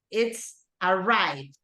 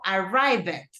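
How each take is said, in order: First: The ending is a short, barely heard d sound. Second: The ending is pronounced as a full extra syllable. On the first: The speaker calls it right. "el sonido es mucho más sutil" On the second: The speaker calls it wrong. "yo no digo arrived"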